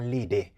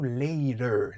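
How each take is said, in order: First: The final syllable ends in an 'ay'-like vowel. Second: The final syllable ends in a weak 'uh' vowel. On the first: The speaker calls it wrong. "C'est pas later" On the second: The speaker calls it right. "Terminaison E R là, il est toujours prononcé E"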